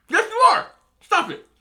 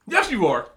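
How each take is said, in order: First: Much higher, louder insistence; emphatic contradiction. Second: Said in the usual way. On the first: Acted. Arguing with people who claim they're different, high-pitched insistence. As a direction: pitch it way up, insisting over their denial.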